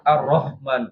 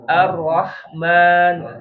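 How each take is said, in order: First: The h is a soft, light breathy sound. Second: The h is a tight, harsh throat sound. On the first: The speaker calls it wrong. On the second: The speaker calls it right. "Udara yang keluar"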